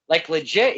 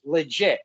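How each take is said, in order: First: "legit" with a rising question tune; "Like, legit?" rising, incredulous; asking in disbelief. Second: "Legit." with a falling, settled tune; "Legit." said as a final answer; firm confirmation. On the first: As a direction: ask "legit?" as if you can't believe it. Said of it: "And I go". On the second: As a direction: confirm it flatly, no question left. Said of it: "He goes". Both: Retold or imitated.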